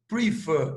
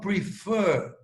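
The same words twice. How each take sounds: First: The stress is on the first syllable. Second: The stress is on the last syllable. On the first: The speaker calls it wrong. "Eu não falo prefer" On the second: The speaker calls it right. "eu falo prefer"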